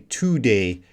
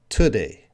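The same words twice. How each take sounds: First: The first vowel is a full 'oo' sound. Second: The first vowel is a reduced 'uh' sound. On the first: The speaker calls it wrong. "we don't say today" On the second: The speaker calls it right. "we're gonna reduce this vowel sound to uh"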